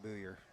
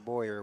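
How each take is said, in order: First: The first vowel is said as 'oo'. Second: The first vowel is said as 'oy'.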